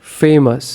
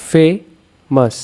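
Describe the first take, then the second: First: Said in the usual way. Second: famous slowly split, ফে set apart before মাস; stressed first syllable. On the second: Shown as a demonstration. Teacher showing where stress falls, famous split after stressed ফে. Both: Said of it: "ফেটা হচ্ছে stressed".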